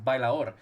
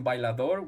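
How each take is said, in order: First: The word is said with slurred, run-together sounds. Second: The word is said with every sound clearly pronounced.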